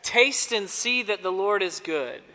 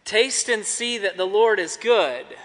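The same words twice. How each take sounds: First: Said in the usual way. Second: Smiling. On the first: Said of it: "Are you ready?". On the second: Shown as a demonstration. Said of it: "try to smile when you say it".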